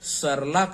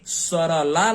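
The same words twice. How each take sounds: First: No vowel follows the middle consonant. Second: A full vowel follows the middle consonant. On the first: The speaker calls it right. "सरला करते हैं" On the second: The speaker calls it wrong. "उच्चारण सरला न करके"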